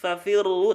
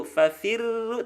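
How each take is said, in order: First: FAFIRRU with heavy, darkened double R; thick R. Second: Slow, higher FAFIRRU with light trilled R; thin R. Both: Shown as a demonstration.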